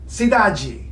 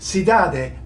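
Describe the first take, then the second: First: The final d sounds like j. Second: The final d sounds like a plain d. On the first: The speaker calls it right. "but nope, cidade. ... I just heard that D go ja" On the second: The speaker calls it wrong. "It might look to you like it should be cidade"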